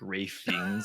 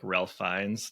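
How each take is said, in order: First: The first name sounds like Rafe, without an L. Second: The first name sounds like Ralph, with an L. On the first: "pronounced in some fucked up way, like" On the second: "and not like"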